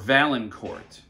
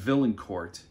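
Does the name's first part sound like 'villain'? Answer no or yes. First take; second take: no; yes. First: The first part does not sound like 'villain'. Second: The first part sounds like 'villain'. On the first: The speaker calls it right. "when it's Valliancourt" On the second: The speaker calls it wrong. "I keep saying Valliancourt, like the villain is in court"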